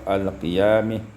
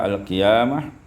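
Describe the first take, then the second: First: The final vowel is tilted toward i. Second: The final vowel is a plain open a.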